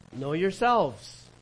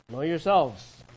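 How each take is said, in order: First: "Know yourselves" drawn out slowly, every word weighted; slow emphatic reading. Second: Said in the usual way. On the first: Shown as a demonstration. Preacher reads the verse to the congregation, slow and weighty.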